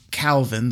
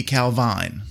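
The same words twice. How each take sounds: First: "Calvin" said just the way it's spelled; pronounced as spelled. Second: "Calvine" with the ending rhyming with "vine"; alternative pronunciation. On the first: Host reading out a Scottish town's name, pronounced as spelled. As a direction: say "Calvin" as the spelling reads, ending in "-vin". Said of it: "the way it's spelled". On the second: Host guessing at a Scottish town's name, alternative pronunciation. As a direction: say "Calvine" with a long i in the last syllable. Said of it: "But it may be Calvine". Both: Shown as a demonstration.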